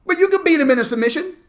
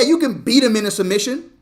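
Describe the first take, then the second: First: Higher and faster, driving it home; fast, high emphatic repeat. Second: Said in the usual way. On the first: Acted. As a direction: repeat it higher and quicker for punch. Repeats the line, pushed up.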